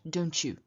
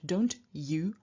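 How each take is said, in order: First: The t and y merge into a ch sound. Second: The t and y stay separate, plain y. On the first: The speaker calls it right. "but rather we say do you and don't you" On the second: The speaker calls it wrong. "we don't say do you and don't you"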